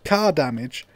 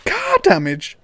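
First: Said in the usual way. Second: High, loud incredulous question; car damage, he can't believe it; shocked disbelief. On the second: Real, not acted. Gamer rereads the charge, high and shocked. Reads fee, then repeats amazed.

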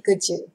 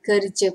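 First: Kerja as "keja", without R; R dropped. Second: Kerja with the R sounded; full R form. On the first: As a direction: leave the R out of kerja. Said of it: "remove the R word and they just say". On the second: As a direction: say kerja with an audible R before the j. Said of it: "some people remove the R word". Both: Shown as a demonstration.

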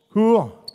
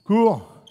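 Both takes have the same delivery.

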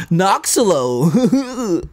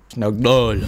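First: Noxolo stretched out slowly, high and laughing; mock American Noxolo. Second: Noxolo at normal pitch and pace; just say Noxolo plainly. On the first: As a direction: drag out Noxolo with a laugh, mocking your own American accent. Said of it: "I'm gonna be like". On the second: Shown as a demonstration. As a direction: Noxolo said plainly after the mocking take. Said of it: "That sounds so".

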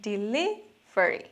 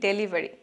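First: ডেলিভারি drawn out slowly as "di-LI-ve-ri"; very slow ডেলিভারি opening on "di"; careful teacher demo of ডেলিভারি as "di-livery"; correct pronunciation. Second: ডেলিভারি said Bangla-style as "de-li-va-ri"; ডেলিভারি with a plain "de" at the start, the usual mistake; the everyday Bangla ডেলিভারি, "deliveri"; common wrong pronunciation. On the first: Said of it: "কিন্তু সঠিক উচ্চারণ". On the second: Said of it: "এখানে উচ্চারণে একটু ভুল আছে". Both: Shown as a demonstration.

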